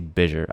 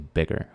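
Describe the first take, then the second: First: The middle g sounds soft, like j. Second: The middle g sounds hard, as in egg. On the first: The speaker calls it wrong. "I don't say bigger" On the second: The speaker calls it right. "I say bigger"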